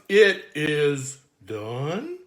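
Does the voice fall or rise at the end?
rises. The voice rises to a high note at the end.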